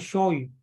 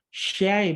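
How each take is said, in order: First: The vowel is rounded with the mouth closed. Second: The vowel is said with the mouth open. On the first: The speaker calls it wrong. "bukan syoy" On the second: The speaker calls it right. "jadi syai"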